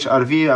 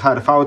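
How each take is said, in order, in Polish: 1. Litery nazywa się po angielsku. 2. Litery nazywa się po polsku. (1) "ale nie HRV" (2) "tak spolszczone będę mówił, będzie mi się łatwiej wymawiać"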